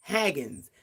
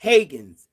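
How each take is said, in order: First: Haggans as HAG-ganz, softer; name try. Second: Haggans as HAY-ganz, louder; name try. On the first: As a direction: Haggans with a short a. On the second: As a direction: Haggans with a long ay. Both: Shown as a demonstration. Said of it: "what did I say?".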